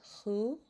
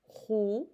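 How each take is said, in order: First: The u vowel is weak and unclear. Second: The u vowel is full and clear. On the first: The speaker calls it wrong. "not khu" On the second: The speaker calls it right. "I have to make the dhamma very clear"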